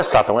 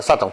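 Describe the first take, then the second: First: SÁTÃO as the rejected form, first syllable marked; wrong pronunciation. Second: SATÃO with the weight on the final ÃO; corrected pronunciation. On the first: Teacher repeating the rejected reading, stressed open first A in SÁTÃO. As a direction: say SÁTÃO as the mistaken version. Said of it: "Não é Sátão". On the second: Teacher repeating the correction, stress on the end of SATÃO. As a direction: say SATÃO quickly with stressed TÃO. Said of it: "é Satão". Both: Shown as a demonstration.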